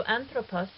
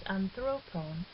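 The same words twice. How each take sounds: First: Anthropos stressed on its first syllable, AN-thropos; stress on antepenult. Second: Anthropon stressed on THRO, an-THRO-pon; stress moved to penult. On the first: Teacher showing a short ultima, anthropos stressed on the antepenult. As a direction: put the weight on AN in anthropos. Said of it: "the acute accent on the antepenult". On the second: Teacher showing how the word changes, anthropon stressed on the penult. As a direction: shift the weight onto THRO in anthropon. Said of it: "the accent can no longer be on the". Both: Shown as a demonstration.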